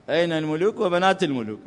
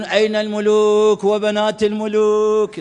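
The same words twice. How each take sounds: First: Said in the usual way. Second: Drawn-out, slow mock call; imitating a shout. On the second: Students on the roof calling out, drawn-out mock shout. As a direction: call it out slowly like students on a rooftop. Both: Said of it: "يصيحون".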